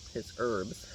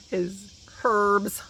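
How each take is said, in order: First: Said in the usual way. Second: "herbs" with a clearly sounded h; British herbs. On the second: Shown as a demonstration. To viewers, mock British "herbs" with the h. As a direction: say "herbs" British-style, h pronounced. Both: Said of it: "I'm not British".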